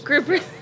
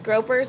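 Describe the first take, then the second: First: The first vowel sounds like the one in 'group'. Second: The first vowel sounds like the one in 'grope'. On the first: The speaker calls it right. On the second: The speaker calls it wrong.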